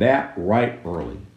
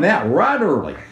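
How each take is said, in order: First: It is said in a neutral reading accent. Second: It is said in a Southern US accent.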